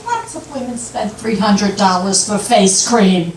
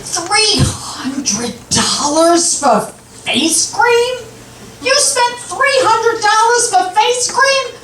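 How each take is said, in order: First: Unruffled wife's retort, acted; calm defensive reply; matter-of-fact comeback. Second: High-pitched outraged husband, imitated; mock outrage, words stretched out then climbing high in disbelief; hit the ceiling. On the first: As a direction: answer the outrage evenly, in an everyday pitch. Wife's calm comeback to outraged husband. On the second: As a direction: act out a husband hitting the ceiling over a bill. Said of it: "hit the ceiling".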